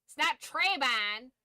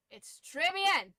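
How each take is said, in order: First: Said in the usual way. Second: Très bien in slow proper French, nasal bien, louder; très bien stretched out slowly in French. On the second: Shown as a demonstration.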